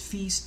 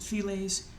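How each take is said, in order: First: The word is said without any L sound. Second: The word is said with an L sound. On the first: The speaker calls it right. "It's French, it's Feast, the L's are silent" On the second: The speaker calls it wrong. "some people pronounce it Files"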